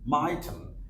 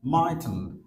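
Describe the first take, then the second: First: The words are squeezed into one contracted word. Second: The same.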